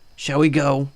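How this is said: The pitch pattern sounds odd and unnatural. The speaker calls it wrong. "That was weird. Uh, weird inflection"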